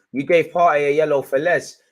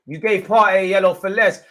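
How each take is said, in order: First: Loud indignant complaint at the ref; angry protest. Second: Higher, louder repeat, more outraged; escalating angry protest. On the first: Streamer protesting Partey's booking to the ref, angry and loud. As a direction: hammer the ref with it. Fan protests referee decision. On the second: Streamer repeating his complaint to the ref, more outraged and higher. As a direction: push the complaint harder, rising in pitch. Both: Real, not acted.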